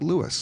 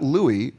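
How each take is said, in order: First: The name ends with an s sound. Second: The name ends without an s sound. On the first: This is how the man pronounced his own name. "but Louis" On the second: This is the pronunciation most people expect. "not Louis"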